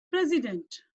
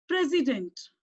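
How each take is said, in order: First: President said clearly, stress on PRES; teacher modelling President; model pronunciation. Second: President repeated evenly, stress on PRES; teacher repeating President; model pronunciation. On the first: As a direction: say President carefully for the class. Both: Shown as a demonstration. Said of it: "Can we pronounce it?".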